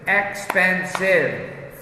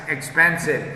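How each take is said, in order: First: Expensive stretched slow, every syllable of Expensive clear; slow drawn-out model word. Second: Said in the usual way. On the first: Shown as a demonstration. Teacher modelling Expensive slowly for students, stretched out. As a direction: say Expensive slowly so the class hears each syllable.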